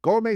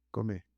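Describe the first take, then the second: First: Louder, higher "Come" with a rise; insistent call. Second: Soft, low coaxing "Come"; gentle urging. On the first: Angel insists Elijah get up and eat, loud call. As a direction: wake him up with it. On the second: Angel softly tells Elijah to eat, hushed coaxing. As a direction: nudge him gently awake. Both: Acted.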